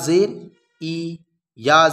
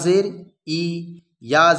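Both takes have the same delivery.

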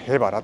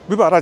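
First: The name begins with a 'he' sound. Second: The name begins with a 'bu' sound. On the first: The speaker calls it right. "ここはね、へばらと読みます" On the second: The speaker calls it wrong. "部ばらじゃないですね"

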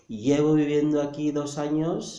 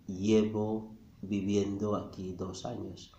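First: The sentence is spoken quickly, at natural speed. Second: The sentence is spoken very slowly and deliberately. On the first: "this guy was saying something like" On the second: "I said it in slow motion"

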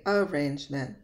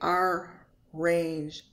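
First: There is only one R sound. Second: The R sound is doubled across syllables. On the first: The speaker calls it right. "There's only one R sound" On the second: The speaker calls it wrong. "I don't say arrangement"

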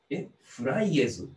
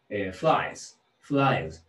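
First: The ending is said as a separate extra syllable. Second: The ending joins the word in one syllable. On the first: The speaker calls it wrong. "違うんですね、" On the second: The speaker calls it right. "そのままでいいんです。"

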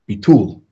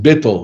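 First: The stress falls on the second syllable. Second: The stress falls on the first syllable. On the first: "The emphasis on the second syllable, or on the last syllable"

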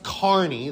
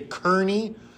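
First: The first syllable rhymes with 'car'. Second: The first syllable does not rhyme with 'car'. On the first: The speaker calls it right. "it is pronounced Kearny. ... that E-A-R making an R sound" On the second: The speaker calls it wrong. "People say Kearny"

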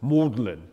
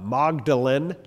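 First: It is said the British way, unlike Magdalene. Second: It sounds like the name Magdalene. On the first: "if you're British, you pronounce it Magdalen, like that" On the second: "like Mary Magdalene"

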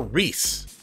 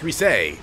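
First: The name is said as one syllable, Reese. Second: The name is said as two syllables. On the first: The speaker calls it wrong. "I keep calling her Reese" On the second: The speaker calls it right. "It's Reese"

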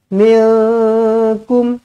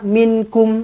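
First: The nasal sound before k is held long. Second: The nasal sound before k is cut short. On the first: The speaker calls it right. "Dengungkan dia. Minkum. Macam tu" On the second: The speaker calls it wrong. "Tak nak minkum"

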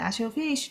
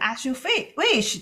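First: It is said flatly, with little feeling. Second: It is said harshly, with force. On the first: The speaker doesn't really care; whatever you like. "很平淡的这样的as you fish 就是很不是那么太在意的哈" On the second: The speaker is angry and gives in resentfully. "如果有人生气的，as you wish 就是那种很狠狠的那样的说法"

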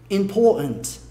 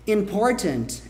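First: Both the R and the T are dropped. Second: Both the R and the T are clearly pronounced. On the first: "Você come o R e também come o T" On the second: "Important é possível"

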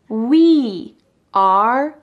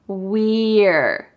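First: Two separate words are said, 'we are'. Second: One contracted syllable is said, 'we're'. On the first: "I didn't say we are cleaning" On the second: "I said we're"

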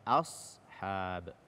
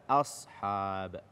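Both takes have the same delivery.

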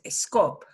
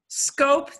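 First: A short e sound comes before the s. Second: The word starts directly with the s sound.

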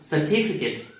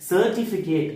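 First: The stress falls on the second syllable. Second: The stress does not fall on the second syllable. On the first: The speaker calls it right. "Certificate அப்படின்னு தான் படிக்கணுமே" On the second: The speaker calls it wrong. "Certificate அப்படின்னு படிக்கக்கூடாது"

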